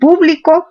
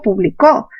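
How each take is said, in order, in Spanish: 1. La tónica es la primera sílaba. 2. La tónica es la última sílaba. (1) "esdrújulas"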